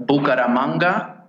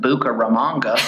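First: Said in the usual way. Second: Bucaramanga in a mock gringo accent; hammed-up gringo pronunciation. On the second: Shown as a demonstration. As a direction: say it like an American gringo mangling Spanish. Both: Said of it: "as the common gringo would pronounce it".

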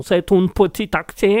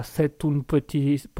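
First: Botched German accent; bad German accent. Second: Slow, botched Italian accent; English accent slipping slowly into Italian; accidental Italian accent. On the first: Host mangling accents for listeners, clumsy German accent. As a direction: attempt an accent that lands in German. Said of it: "Et là, c'était de l'allemand". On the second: Host fumbling his accents for listeners, shaky attempt at Italian accent. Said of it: "l'accent anglais qui vient de se transformer en accent italien". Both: Shown as a demonstration.

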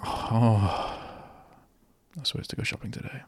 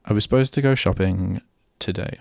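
First: Quick, hushed whisper of a forgotten errand; a fast, breathy aside under your breath; mock whisper. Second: Said in the usual way. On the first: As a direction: whisper it to yourself like you just remembered. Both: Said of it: "I don't go".

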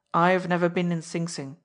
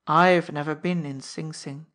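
First: Hardened. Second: Thin smile. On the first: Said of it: "His voice hardened suddenly". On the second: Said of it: "he said with a thin smile". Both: Acted.

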